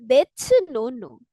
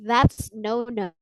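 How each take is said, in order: First: It is said with Korean accented pronunciation. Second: It is said with English pronunciation. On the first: "Karena kita ngomongnya pakai logat Korea" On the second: "Kalau dalam bahasa Inggris kan kita bacanya gitu ya"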